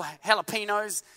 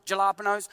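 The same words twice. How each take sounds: First: Jalapenos said with an h, hah-luh-PEE-nos; local pronunciation. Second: Jalapenos said with a hard j, juh-LAH-puh-nos; own pronunciation. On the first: The preacher gives the way people here say jalapenos. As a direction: say jalapenos with a soft h sound at the start. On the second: The preacher says jalapenos his own way to the church. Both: Shown as a demonstration. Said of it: "or as I call them".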